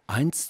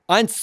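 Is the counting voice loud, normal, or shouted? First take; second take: normal; loud. First: The number is spoken at a normal level. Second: The number is spoken somewhat louder.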